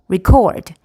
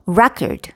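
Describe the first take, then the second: First: Record as the verb, re-CORD, weak first syllable; second-syllable stress. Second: Record as the noun, RE-cord, first syllable punched; first-syllable stress. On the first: Teacher contrasting the same word, record stressed on the second syllable. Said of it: "어느 음절에 강세가 있는지에 따라서". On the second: Teacher giving an example of syllable stress, record stressed on the first syllable. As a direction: hit REC in record, weak ending. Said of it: "첫 번째 음절에 강세가 있어요". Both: Shown as a demonstration.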